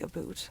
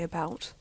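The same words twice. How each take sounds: First: A stereotyped Canadian vowel with a sharp final T. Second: A softer vowel with a light final T. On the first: This is the stereotyped way others imagine Canadians talk. "I don't say about" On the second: This is how the speaker really talks. "I say about. the T at the end for me isn't sharp. It's very light. It's soft"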